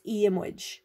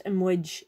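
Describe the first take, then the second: First: Iamwij said slowly, vowel long and strong; long fada vowel. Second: Imwij said short, no fada; short wrong vowel. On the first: Teacher modelling the correct ending slowly. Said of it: "It makes the vowel longer and stronger". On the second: Teacher showing the wrong ending to avoid. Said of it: "it's iamwij". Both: Shown as a demonstration.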